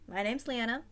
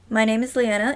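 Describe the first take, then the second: First: The voice sounds faint and distant. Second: The voice sounds louder and fuller. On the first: "I'm gonna turn the gain all the way down" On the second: "turn the gain up, all the way up"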